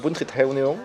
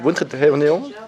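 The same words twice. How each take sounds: First: The name is said with a French accent. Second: The name is said with a Vietnamese accent.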